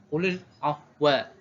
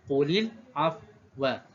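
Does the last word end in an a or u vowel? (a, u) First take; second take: a; a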